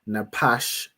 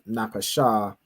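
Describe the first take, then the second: First: The word ends on a consonant sound. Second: The word ends on an added vowel sound. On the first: The speaker calls it right. "pronounce this as Napash" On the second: The speaker calls it wrong. "instead of Napasha"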